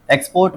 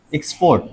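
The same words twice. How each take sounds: First: Said in the usual way. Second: export as ik-SPORT, falling at the end; stress on second syllable. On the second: Shown as a demonstration. Teacher showing class the stress, export stressed on second syllable. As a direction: put the weight on "port" in export. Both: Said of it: "second वाले पे आ रहा है".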